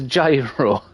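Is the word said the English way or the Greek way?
English. It is said with an English-style pronunciation. It is the easier local way to say it. "it's a gyro"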